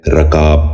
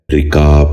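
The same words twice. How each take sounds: First: رکاب said "rakaab", with an "a" after the r; mispronounced vowel. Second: رکاب said "rikaab", short "i" after the r; correct pronunciation. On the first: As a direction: open رکاب with "ra" instead of "ri". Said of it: "یہ غلط تلفظ ہے". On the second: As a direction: open رکاب with "ri", then long "kaab". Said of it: "درست تلفظ ہے". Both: Shown as a demonstration.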